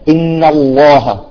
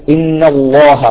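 Both takes have the same delivery.

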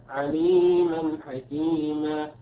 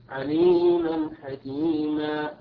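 The two takes are said the same way.

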